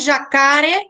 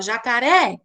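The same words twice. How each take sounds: First: The stress is on the middle syllable. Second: The stress is on the last syllable. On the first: "aí o K seria mais forte" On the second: "Você fala jacaré. Então, a última sílaba ela fica mais"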